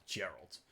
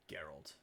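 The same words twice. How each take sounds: First: Gerald with a soft J sound; wrong pronunciation. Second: Gerald said as Geralt, hard G; hard G on Gerald, the correct way; correct pronunciation. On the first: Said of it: "Not Gerald". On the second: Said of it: "Geralt of Rivia". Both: Shown as a demonstration.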